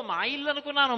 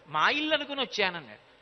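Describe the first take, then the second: First: Put-on higher, playful child's innocence; Krishna's cheeky reply. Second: Said in the usual way. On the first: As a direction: act the mischievous boy feigning innocence. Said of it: "అన్నాడు". (అల్లరి కృష్ణుడి అమాయకపు గొంతు)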